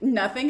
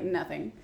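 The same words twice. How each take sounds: First: NOTHING as a rising question; questioning echo. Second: Low, soft brush-off; evasive answer. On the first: Sam repeating Dean's answer back, NOTHING questioned. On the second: Dean hiding what is in the bag, evasive. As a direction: dismiss the question with a quiet NOTHING. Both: Retold or imitated.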